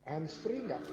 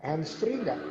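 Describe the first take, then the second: First: Echoed phrase repeats. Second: Said in the usual way. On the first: Real, not acted. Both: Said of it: "Suara saya tuh menggema".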